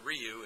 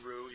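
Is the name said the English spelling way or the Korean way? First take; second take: English spelling; Korean. First: The name is said as the spelling suggests. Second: The name is said the Korean way. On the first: The speaker calls it wrong. "So it's not Ryu" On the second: The speaker calls it right. "in Korean you pronounce it Ryu"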